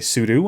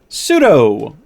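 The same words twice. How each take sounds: First: The word ends with a 'doo' sound. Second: The word ends with a 'doh' sound. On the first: "it means super user do, which is why some folks say sudo" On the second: "Sudo sounds better"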